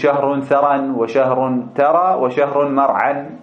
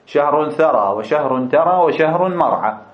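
First: The nouns end with an added n sound. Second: The nouns end without an added n sound. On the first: The endings break the rhyme. The speaker calls it wrong. "لا تقول ... مثلا بالتنوين" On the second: The endings rhyme with the verb. The speaker calls it right. "ما تنون حتى السجع يتناسب مع الفعل ترى"

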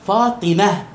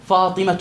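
First: The final letter is sounded as h, with a stop. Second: The final letter is sounded as t, joined on.

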